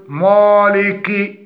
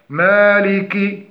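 First: Slow مالك with dark, thick long a; wrong heavy مالك. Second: Slow مالك with light a and short final i; correct مالك. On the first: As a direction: darken the maa in مالك, as a mistake. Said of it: "ولا نقول". (مالك بتفخيم خاطئ) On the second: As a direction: keep مالك thin and clearly voweled. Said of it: "فنقول الصواب". (مالك بميم مرققة وكاف مكسورة) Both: Shown as a demonstration.

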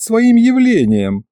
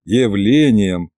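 First: Higher, slow and pompous; drawn-out imp. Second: Slow, low mocking repeat; sarcastic drawn-out echo. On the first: A narrator's reading. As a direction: stretch the words out importantly. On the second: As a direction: mimic him with scorn. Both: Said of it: "передразнил я".

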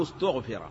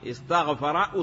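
First: استغفر as ustughfir, u on the first and third letters, i before the last; passive form. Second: Said in the usual way. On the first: Shown as a demonstration. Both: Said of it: "فبضم أوله وثالثه".

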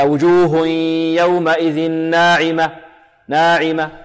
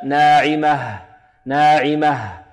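First: ناعمة ending in a bare "a", as in dialect; colloquial final vowel. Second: ناعمة slow and falling, closed with an audible h; clear final ha. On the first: Quran teacher mimics dialect leaking into recitation, colloquial final vowel. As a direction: recite وجوه يومئذ ناعمة with the last h missing. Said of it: "يقرأه هكذا". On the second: Quran teacher corrects the error with a clear final ha. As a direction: breathe out a distinct h at the end of ناعمة. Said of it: "لا بد من إيضاح الهاء". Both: Shown as a demonstration.

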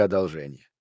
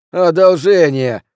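First: Said in the usual way. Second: Loud, high, drawn-out scornful repeat; indignant, stretched-out exclamation; spitting the word out. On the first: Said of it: "Джуниор едва ли не выплюнул это слово". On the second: A narrator's reading. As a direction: throw the word back, slow and loud. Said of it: "едва ли не выплюнул это слово".

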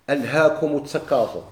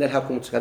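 First: Quranic verse set apart with care; measured, reverent verse quote; quoting scripture. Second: Said in the usual way. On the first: Shown as a demonstration. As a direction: lift the verse out like a quotation from the Quran. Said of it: "أما قوله تعالى". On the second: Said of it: "لا، هذيك لا".

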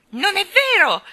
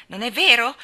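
First: Put-on high, loud childish squeal; shrieked denial. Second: Loud, higher disbelieving question; challenging. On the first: Colin denies being selfish, shrieking. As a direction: scream it back, outraged. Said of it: "strillò Colin". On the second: Colin challenges Mary's disbelief, defiant. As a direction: throw it back as a dare. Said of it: "la sfidò". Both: A narrator's reading.

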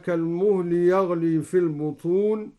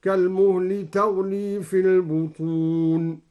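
First: Said in the usual way. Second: Slow chanted tartil starting the verb تغلي with t; recited with ta. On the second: Shown as a demonstration. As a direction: intone تغلي with a clear t. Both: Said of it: "هكذا".

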